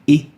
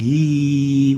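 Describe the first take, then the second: First: The vowel is cut short and interrupted. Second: The vowel is held long and smooth. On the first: The vowel has a hamza. "we'll say I" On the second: The vowel has no hamza. "instead of saying ye"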